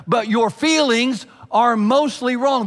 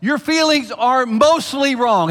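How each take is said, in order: First: Loud, high and slow, feelings leaned on; emphatic repeat. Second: Slow, loud, high, stress on feelings; emphatic declaration. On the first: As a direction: drive feelings home again. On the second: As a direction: lean hard on feelings. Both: Acted. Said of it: "let me go this far".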